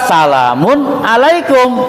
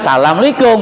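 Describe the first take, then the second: First: The '-un' ending is fully pronounced. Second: The words are run together without '-un'. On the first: The speaker calls it right. "tetap salamun alaikum" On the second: The speaker calls it wrong. "bukan salamalikum gitu loh"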